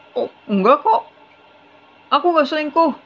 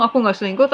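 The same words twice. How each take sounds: First: Higher, put-on voice of a husband faking innocence; the husband acting wounded when his wife asks about the affair, higher and put-on; husband's innocent denial. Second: Said in the usual way. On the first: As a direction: play the cheating husband brushing it off sweetly.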